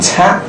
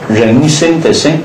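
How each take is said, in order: First: The character is pronounced can. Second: The character is pronounced shen. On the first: The speaker calls it wrong. "这个地方不能读参" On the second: The speaker calls it right.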